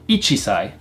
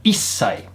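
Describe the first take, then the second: First: The chi sound is kept before sai. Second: The chi is dropped and the s lengthened. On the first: The speaker calls it wrong. "One years old is not ichisai" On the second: The speaker calls it right. "We drop off the chi sound and we make the s sound a little bit longer"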